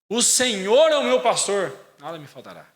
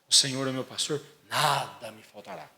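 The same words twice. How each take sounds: First: The emphasis falls on the first half. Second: The emphasis falls on the second half. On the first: The focus is on having the Lord as shepherd. The speaker calls it right. "é justamente o contrário" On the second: The focus is on never lacking anything. The speaker calls it wrong. "põe a ênfase no nada me faltará"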